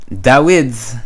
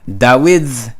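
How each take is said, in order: Both takes have the same delivery.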